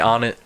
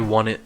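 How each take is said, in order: First: The name starts with an 'on' sound. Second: The name starts with a 'won' sound. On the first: "I say on it" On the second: "Some say won it. Won it sounds weird"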